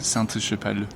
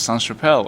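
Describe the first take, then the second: First: The first word ends with a T sound. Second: The first word ends without a T sound. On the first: The speaker calls it right. "there's an E at the end, it's feminine" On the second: The speaker calls it wrong. "I always thought it was just Sainte-Chapelle"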